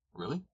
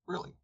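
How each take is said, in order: First: "Really?" rising high in disbelief; a doubting shepherd's sharp question; surprised question. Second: Said in the usual way. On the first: A narrator's reading. Frick doubts the barometer.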